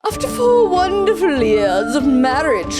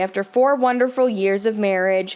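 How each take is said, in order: First: It is read in a mocking, sarcastic way. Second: It is read in a plain, sincere way.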